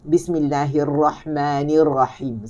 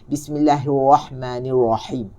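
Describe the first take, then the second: First: The r is made with the tongue touching. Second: The r is made without the tongue touching. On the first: The speaker calls it right. "Kita kena sentuh" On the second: The speaker calls it wrong. "Apabila kita tidak bersentuh, maka bunyinya"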